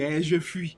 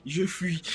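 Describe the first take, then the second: First: Said in the usual way. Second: « je fuis » dit avec un sanglot pour rire; faux sanglot. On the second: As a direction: pleurniche « je fuis » en faisant semblant. Fait semblant de fuir en riant. (fausse plainte pour rire avant de s'enfuir, sanglot joué)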